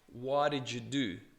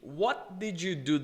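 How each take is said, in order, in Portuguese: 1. As palavras são contraídas e ditas juntas. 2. Cada palavra é dita completamente e separadamente.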